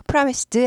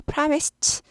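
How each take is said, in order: First: "promised" ending in "seu-deu"; "promised" with a heavy "-deu" ending; wrong voiced ending. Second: "promised" ending in a crisp "st"; "promised" said as "pramist", no added vowel; t-sound ending. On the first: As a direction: add a d and vowel to "promised". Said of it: "이거 promised 아니고 promised". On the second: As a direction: finish "promised" on a voiceless t. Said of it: "promised 발음이 납니다". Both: Shown as a demonstration.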